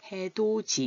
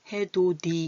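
First: The last syllable is pronounced with a 'j' sound. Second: The last syllable is pronounced with a 'd' sound. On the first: The speaker calls it right. "이렇게 발음하는 거예요" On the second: The speaker calls it wrong. "이렇게 발음하지 않고"

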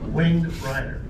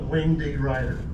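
First: The first word is said as 'winged'. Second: The first word ends with a separate 'dee' syllable. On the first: The speaker calls it right. "that's not the way you say it, Winged Ryder" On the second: The speaker calls it wrong. "How many of you still call it Wing D. Ryder?"

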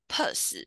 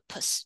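First: The syllable has a full, strong vowel. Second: The syllable has a light, reduced vowel. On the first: The speaker calls it wrong. "你以前学过的可能会是发U的音，但是它这边吼比较没有那个pus" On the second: The speaker calls it right. "轻轻的pus 就好了"

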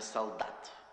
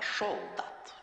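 First: The word begins with a plain 's' sound. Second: The word begins with a lisped 'sh' sound. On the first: The speaker calls it wrong. "Не солдат" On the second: The speaker calls it right. "а шолдат. Шолдат вместо с"

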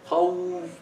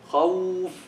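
First: The waw has exaggerated lip rounding. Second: The waw has exaggerated lip rounding.

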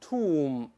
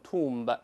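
First: The final b is silent. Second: The final b is pronounced. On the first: The speaker calls it right. "咱们都是tomb" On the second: The speaker calls it wrong. "不能读tomb"

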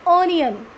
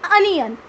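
First: The first vowel sounds like aw. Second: The first vowel sounds like uh. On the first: The speaker calls it wrong. "It's not ऑनियन" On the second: The speaker calls it right. "It's अनियन"

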